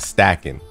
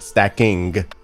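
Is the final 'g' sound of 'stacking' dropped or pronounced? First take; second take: dropped; pronounced. First: The final g sound is dropped. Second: The final g sound is fully pronounced. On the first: The speaker calls it right. "don't finish your word. Like, I'm stacking" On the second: The speaker calls it wrong. "not stacking"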